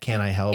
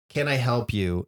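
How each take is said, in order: First: It sounds rude, as if asking "do you belong here?" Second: It sounds like a plain, friendly offer.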